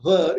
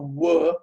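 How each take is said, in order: First: It begins with a buzzing V sound. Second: It begins with a rounded W sound. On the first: The speaker calls it wrong. "It's not a ver" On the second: The speaker calls it right. "it's a were"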